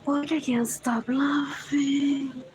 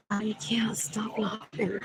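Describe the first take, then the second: First: Said in the usual way. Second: Whisper. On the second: Real, not acted. Repeats the line in a whisper.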